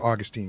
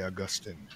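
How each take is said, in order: First: The name is said in a casual, everyday way. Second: The name is said in a formal, scholarly way. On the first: This is the habitual reading of the name. "but then I'll switch back to Augustine" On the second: This is meant to sound more learned. "So then I'll say Augustine"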